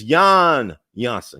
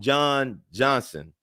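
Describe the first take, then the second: First: The first name is said the Dutch way. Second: The first name is said the English way. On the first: The speaker calls it right. "but it's Jan Johnson because he's Dutch" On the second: The speaker calls it wrong. "I think I call him John Johnson"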